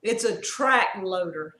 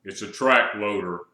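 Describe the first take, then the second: First: Slow, mildly husky quote; slow, slightly put-on huskiness. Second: Slow, low husky voice; deep put-on husky growl. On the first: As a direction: lightly imitate a husky voice. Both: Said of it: "he said with a husky voice".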